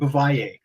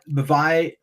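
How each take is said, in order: First: It is said with a plain English-style pronunciation. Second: It is said with a French-sounding pronunciation. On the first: This is how the speaker has always said it. The speaker calls it wrong. "I can't stop saying it" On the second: This follows the namesake's French pronunciation. The speaker calls it right. "How did Nate say it?"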